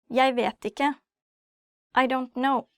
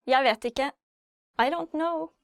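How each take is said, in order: Both takes have the same delivery.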